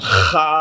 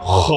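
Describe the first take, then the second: First: The letter is said light, with an open vowel. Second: The letter is said heavy, with a darker vowel. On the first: The speaker calls it wrong. "কিন্তু খা না" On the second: The speaker calls it right. "কারণ এটা মোটা হবে"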